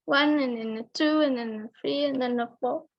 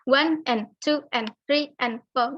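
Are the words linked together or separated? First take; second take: linked; separated. First: The words are linked smoothly together. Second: Each word is said separately. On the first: The speaker calls it right. "one and two itu di connected ya, maksudnya disambung" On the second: The speaker calls it wrong. "Jadi bukan one and two and three and four, nggak kayak gitu"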